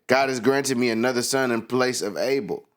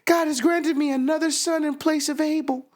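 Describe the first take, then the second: First: It is said in the speaker's own voice. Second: It is said in a put-on character voice.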